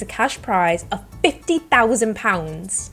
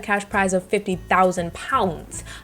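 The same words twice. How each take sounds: First: It is said in a put-on British accent. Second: It is said in the speaker's normal accent.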